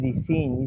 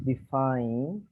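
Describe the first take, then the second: First: The second vowel is a single plain sound. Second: The second vowel glides through two sounds. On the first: The speaker calls it wrong. "you say define" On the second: The speaker calls it right. "I is pronounced like the vowel. Two sounds"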